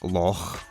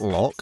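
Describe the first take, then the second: First: The word ends with a breathy H-like sound. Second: The word ends with a hard K sound. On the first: The speaker calls it right. "pronounced not with a K sound, but with a H sound" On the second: The speaker calls it wrong. "It's not loch"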